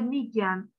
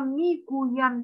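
First: The verb is said in a shortened form. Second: The verb is said in its full form. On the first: This is everyday colloquial speech. "Mahalle şive dilini de öğretiyor. Yani kısaltmalar" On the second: This is the formal written language. "değil"

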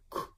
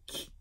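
First: The k is said as before an oe vowel. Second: The k is said as before an i vowel. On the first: "Voor oe zeg ik k" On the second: "voor I zeg ik k"

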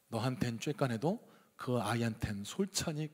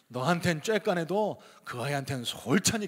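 First: It is read plainly in a standard accent. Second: It is read in a southwestern regional accent. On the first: "사투리 이제 안 하겠습니다. 담백하게 다시 한번 읽어볼게요" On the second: "제가 전라도 사투리 잘하나 한번 들어보세요"

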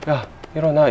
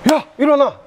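First: It is said softly and gently. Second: It is shouted abruptly and loudly.

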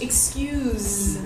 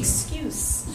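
First: The final consonant is a voiced z sound. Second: The final consonant is a voiceless s sound. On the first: It is used as a verb. "the same word used as a verb" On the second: It is used as a noun or adjective. "a noun or an adjective"

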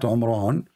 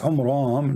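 First: The name ends with an n sound. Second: The name ends with an m sound. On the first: This is a mistaken form of the name. The speaker calls it wrong. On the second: This is the original form of the name. The speaker calls it right. "It's Umram"

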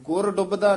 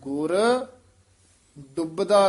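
First: ਗੁਰ runs straight into the next word. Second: ਗੁਰ is held apart with a slight break. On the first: The speaker calls it wrong. "ਨਹੀਂ ਕਹਿ ਦੇਣਾ" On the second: The speaker calls it right. "ਗੁਰ ਤੇ ਯਮਕ ਲਾ ਕੇ ਬੋਲ"

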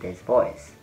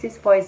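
First: It is spoken in a deep, low voice. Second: It is spoken in a higher, feminine voice. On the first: The speaker calls it wrong. "than this voice" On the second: The speaker calls it right. "it's better to use this voice"

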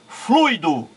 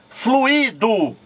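First: The word has two syllables, a gliding diphthong. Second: The word has three syllables, u and i separated.

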